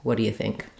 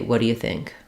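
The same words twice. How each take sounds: No difference in how they are said.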